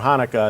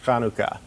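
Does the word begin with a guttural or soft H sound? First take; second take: soft; guttural. First: The first sound is a soft, breathy H. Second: The first sound is a harsh guttural rasp. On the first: "a soft H is perfectly acceptable and easier to say" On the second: "with a, a kind of a guttural C H"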